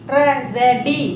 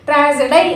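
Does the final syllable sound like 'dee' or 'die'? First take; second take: dee; die. First: The final syllable ends with an 'ee' vowel. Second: The final syllable ends with an 'eye' vowel. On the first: The speaker calls it right. "డివై డి అంటాం కదా" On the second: The speaker calls it wrong. "ట్రా జే డై అనం కదా"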